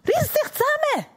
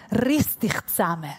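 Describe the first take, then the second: First: High-pitched exasperated order; acted scolding, high and insistent; stern command. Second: Said in the usual way. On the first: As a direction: snap someone out of it, pitched way up.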